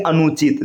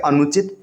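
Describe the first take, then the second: First: अनुचित said as "anoochit", long oo; wrong long vowel. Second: अनुचित said as "anuchit", short u; correct short vowel. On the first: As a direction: stretch the "nu" of अनुचित to "noo". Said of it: "जो कि गलत है". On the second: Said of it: "इसका सही रूप हो जाएगा". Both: Shown as a demonstration.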